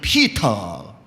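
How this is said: It is said in a British accent.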